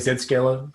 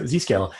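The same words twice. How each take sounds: First: Z is pronounced 'zed', the Australian way. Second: Z is pronounced 'zee', the American way.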